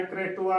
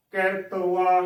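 First: ਕ੍ਰਿਤਵਾ with a "kr" cluster at the start, "kre-tu-va"; ਕ੍ਰਿਤਵਾ with k and r joined, no vowel between them; correct pronunciation. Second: ਕਿਰਤਵਾ with a vowel put after k, "ki-rat-va"; ਕਿਰਤਵਾ split into "ki-rat-va", breaking the cluster; wrong pronunciation. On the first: Teacher demonstrates the correct ਕ੍ਰਿਤਵਾ, "kre-tu-va" with the cluster. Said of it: "ਕ੍ਰਿਤਵਾ ਉਚਾਰਨ ਕਰਨਾ ਹੈ". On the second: Teacher demonstrates the common wrong ਕਿਰਤਵਾ, "ki-rat-va". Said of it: "ਕਿਰਤਵਾ ਉਚਾਰਨ ਨਹੀਂ ਕਰਨਾ". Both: Shown as a demonstration.

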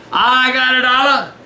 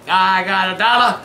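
First: Brighter, playful repeat of "dollar"; excited. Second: Said in the usual way. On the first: Shown as a demonstration. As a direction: say it again with glee. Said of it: "repeated louder". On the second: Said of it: "repeated with more energy".

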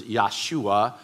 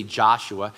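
First: Yahshua said slowly and carefully, Yah-shu-a; Hebrew pronunciation. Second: Said in the usual way. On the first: Shown as a demonstration. Pastor contrasting Hebrew with English, Yahshua said slowly. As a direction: spell out Yahshua by sound. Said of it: "the first is". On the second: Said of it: "We say".

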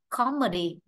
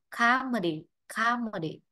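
First: "comedy" with a short rounded O in the first syllable. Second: "comedy" opened to "KAH-medy"; long A. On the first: Teacher offering students the first reading, "comedy" with short O. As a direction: say "comedy" as British "KOM-edy". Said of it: "Nếu đọc comedy thì O nó ngắn hơn". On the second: Teacher offering students the second reading, "comedy" with long ah. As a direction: say "comedy" with an American ah in the first syllable. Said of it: "còn comedy, A nó kéo dài hơn". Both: Shown as a demonstration.

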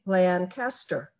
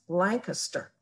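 First: Lancaster said slowly as LAN-cast-er; Lancaster the non-local way, long LAAN then caster; outsider's pronunciation. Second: Lancaster said the local way, LANK-uh-ster; Lancaster as Pennsylvanians say it, short unstressed middle; local Pennsylvania pronunciation. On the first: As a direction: draw out Lancaster with a full CAST in the middle. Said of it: "Or do they say Lancaster?". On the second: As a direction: squeeze Lancaster into LANK-iss-ter, stress up front. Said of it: "the way they pronounce Lancaster". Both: Shown as a demonstration.

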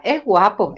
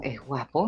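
First: Said in the usual way. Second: Lower, much softer "es guapo", almost under the breath; muttered "es guapo" to herself; low hushed aside. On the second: Retold or imitated. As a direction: drop low and murmur "es guapo". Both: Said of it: "me dice".

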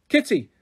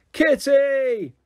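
First: Calling across the park. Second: High, long drawn-out shout; top of her voice. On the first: Lucy calling for Kitty across the empty park. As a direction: call her name out. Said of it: "I called". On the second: Lucy yelling for Kitty at the top of her voice. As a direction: yell it as loud as you can. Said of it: "at the top of my voice". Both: A narrator's reading.

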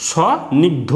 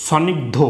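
First: স্বনিগ্ধ as long rising "so", pause, "nigdho"; syllable-by-syllable pronunciation. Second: Said in the usual way. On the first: Shown as a demonstration. Teacher answering how it is pronounced, স্বনিগ্ধ split as "so... nigdho". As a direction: stretch the first syllable of স্বনিগ্ধ, then "nigdho". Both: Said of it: "কি উচ্চারণ হবে".

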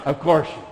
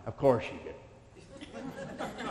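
First: Much louder, higher, mocking retort; loud scornful echo; sarcastic loud repeat. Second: Slow, laughing sarcasm under the breath; scoffing, amused aside; sarcastic chuckle. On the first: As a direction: throw it back at them loudly. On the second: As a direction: drawl it out through a laugh. Mocking company's reply. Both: Real, not acted.

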